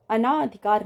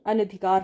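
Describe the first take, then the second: First: अनाधिकार with a stretched "naa"; wrong long vowel. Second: अनधिकार with a short "na"; correct short vowel. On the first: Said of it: "अनाधिकार नहीं". (अनाधिकार में "ना" लंबा) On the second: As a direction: say अनधिकार as "a-na-dhikaar". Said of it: "अनधिकार होता है". (अनधिकार में "न" छोटा) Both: Shown as a demonstration.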